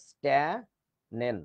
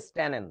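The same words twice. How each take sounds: First: স্ট্যানেন very slow, split "stae... nen"; syllable-by-syllable demo. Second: Said in the usual way. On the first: Shown as a demonstration. Teacher showing how it's pronounced, স্ট্যানেন slowly broken up. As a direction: say স্ট্যানেন softly, pausing between syllables. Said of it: "এরকম, স্ট্যানেন". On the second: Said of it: "এটার উচ্চারণটা হচ্ছে স্ট্যানেন".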